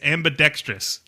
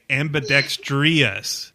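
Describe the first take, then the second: First: No extra 'ee' sound comes before the last syllable. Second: An extra 'ee' sound comes before the last syllable. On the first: The speaker calls it right. "There is no I" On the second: The speaker calls it wrong. "I always hear people say"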